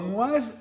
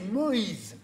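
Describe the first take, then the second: First: The name ends in 'oise', rhyming with Françoise. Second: The name does not rhyme with Françoise. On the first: The speaker calls it wrong. "On dit pas Moise" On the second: The speaker calls it right. "on dit Moïse"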